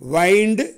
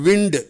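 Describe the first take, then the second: First: The vowel is a diphthong, as in wine. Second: The vowel is short, as in win. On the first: It is the verb meaning to wrap or coil. "ஆனால் இங்கே வெர்பா வர்றதுனால எப்படி உச்சரிக்கணும்?" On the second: It is the noun meaning moving air. "இந்த வார்த்தை பெயர் சொல்லா வரும்போது அதனுடைய உச்சரிப்பு விண்டுன்னு சொல்லணும்"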